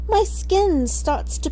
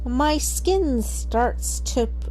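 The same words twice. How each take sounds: First: It is said in a very English accent. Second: It is said in the speaker's normal accent.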